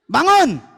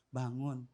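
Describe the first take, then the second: First: It is said harshly, like a snap. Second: It is said softly and gently. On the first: The child is woken by scolding. The speaker calls it wrong. "Cara setan bagaimana?" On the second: The child is woken kindly and will feel comfortable. The speaker calls it right. "Cara Nabi"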